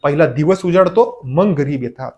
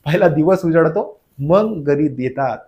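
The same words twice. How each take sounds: First: Said in the usual way. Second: Slow teaching repeat, "पहिला" and "मग" set apart; ठळक क्रम. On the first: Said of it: "पहिला म्हणून पहिली व्हॅलंटी". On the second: Shown as a demonstration. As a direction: spell out the order slowly, pausing around "मग". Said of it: "मग म्हणजे नंतर". ("पहिला" आणि "मग" वेगळे करून, सावकाश)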